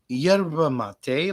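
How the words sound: It is said the common, non-Argentine way. "like everywhere else in the world"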